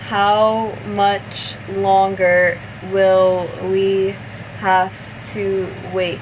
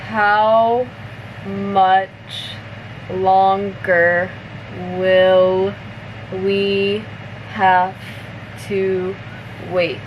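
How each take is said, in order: First: The sentence is spoken somewhat faster. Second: The sentence is spoken slowly. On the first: "a little bit faster now" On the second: "I'll say it slower first"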